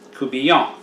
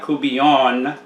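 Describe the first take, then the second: First: The final N is silent. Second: The final N is sounded. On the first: The speaker calls it right. "and the N is silent" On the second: The speaker calls it wrong. "It is not coubillon"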